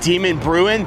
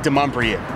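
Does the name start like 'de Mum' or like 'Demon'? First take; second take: Demon; de Mum. First: The name starts with a sound like 'demon'. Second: The name starts with a sound like 'de Mum'. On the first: The speaker calls it wrong. "it pronounces it Demon Bruin" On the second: The speaker calls it right. "but it's actually de Mumbrien"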